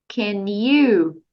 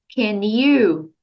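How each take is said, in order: The two takes are said the same way.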